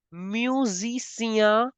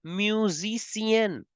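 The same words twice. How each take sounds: First: Musicien slow, ending nasal; masculine form. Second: Musicienne slow, with a clear n at the end; feminine form. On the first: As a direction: say the masculine slowly. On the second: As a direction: say the feminine slowly. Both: Shown as a demonstration. Teacher contrasts male and female musician. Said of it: "the similar endings are here".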